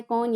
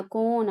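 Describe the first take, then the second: First: "कौन" with a short, open o as in "con"; short vowel. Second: "कौन" with a long o as in "cone"; long vowel. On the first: Teacher contrasting vowel lengths for parents, "कौन" with short o. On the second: Teacher contrasting vowel lengths for parents, "कौन" with long o. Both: Shown as a demonstration. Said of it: "difference between long and short vowels".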